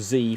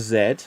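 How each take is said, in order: First: It is said 'zee', American style. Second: It is said 'zed', British style.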